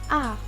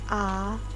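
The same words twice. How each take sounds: First: The pitch falls from high to low. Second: The pitch rises from low to middle. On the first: "Nada empat adalah nada turun" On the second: "Nada dua yaitu mengeluarkan suara dari nada rendah menuju nada tengah"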